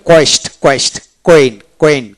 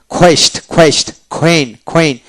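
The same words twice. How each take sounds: First: Said in the usual way. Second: "কোয়েস্ট, কোয়েন" starting with breathy KH; aspirated Q. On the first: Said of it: "কিউতে ক উচ্চারিত হয়". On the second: Shown as a demonstration. Teacher demonstrating phonetic Q to learners, as aspirated KH. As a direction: open "কোয়েস্ট" and "কোয়েন" on a puffed খ, not ক. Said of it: "খ উচ্চারিত করলে".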